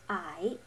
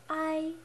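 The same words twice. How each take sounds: First: The pitch dips down then rises. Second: The pitch stays level and flat. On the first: "you lower and raise your voice" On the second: "on the first tone"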